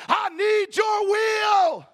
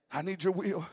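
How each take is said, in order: First: "I need your will" cried out very high and loud, stretched slowly; shouted prayer. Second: Said in the usual way. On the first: Shown as a demonstration.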